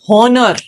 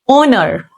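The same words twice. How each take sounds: First: The H sound is pronounced at the start. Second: The H sound is silent at the start. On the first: The speaker calls it wrong. "Not honor" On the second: The speaker calls it right. "H is silent. The actual pronunciation is honor"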